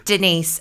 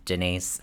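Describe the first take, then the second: First: Higher, louder sung-out Denise; mock Derek calling. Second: Low, flat, deadpan Denise; mock Erica flat. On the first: Imitating Derek at dinner, higher louder Denise. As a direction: call Denise like Derek does. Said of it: "Derek going". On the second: Imitating Erica at dinner, low flat deadpan Denise. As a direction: drop it flatly like Erica. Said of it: "and then Erica going".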